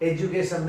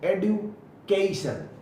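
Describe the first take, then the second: First: The middle consonant is a j sound. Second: The middle consonant is a clear d sound. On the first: The speaker calls it wrong. "एजुकेशन नहीं" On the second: The speaker calls it right.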